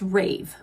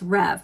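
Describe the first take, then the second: First: The vowel is long, like in 'cave'. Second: The vowel is short, like in 'rev'. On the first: The speaker calls it right. "I think it's Rave" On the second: The speaker calls it wrong. "I don't think it's Rev"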